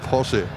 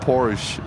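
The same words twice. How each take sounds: First: The final E is sounded. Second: The final E is silent. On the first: The speaker calls it right. "They pronounce the E in the end" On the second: The speaker calls it wrong. "It's not"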